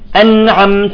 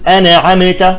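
First: The m is held still with no bounce. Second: The m is released with a small bounce. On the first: The speaker calls it right. "الميم يجب أن تسكن أينما جاءت" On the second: The speaker calls it wrong. "ما نقول أنعمت، شوف تحركت كل الكلمة"

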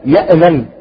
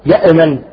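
First: The hamza is released with a bounce. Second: The same.

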